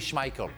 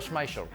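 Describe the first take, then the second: First: The name is pronounced a non-French way. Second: The name is pronounced the French way. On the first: "We don't say Schmeichel because the C H is shut" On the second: "in France we say Peter Schmeichel"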